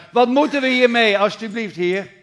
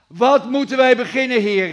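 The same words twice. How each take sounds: First: Loud, high pleading cry; desperate scream. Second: Loud, high cry of panic; desperate cry. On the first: Frightened servant pleads with the Lord, loud and high. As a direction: beg from the depths, out loud. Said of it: "dat hij schreeuwde uit het diepste". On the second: Servant cries out to his Lord in panic, loud and high. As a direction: call out to God in alarm. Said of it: "dat hij schreeuwde". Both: Retold or imitated.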